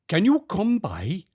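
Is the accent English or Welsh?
Welsh. It is said in a Welsh accent. "I'll do it in a Welsh accent"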